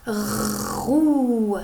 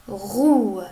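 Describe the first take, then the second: First: ROUE with a long rasped r, then held ou; sounding out. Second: Said in the usual way. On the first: Shown as a demonstration. (« roue » déchiffré, r et ou prolongés) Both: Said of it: "on commence".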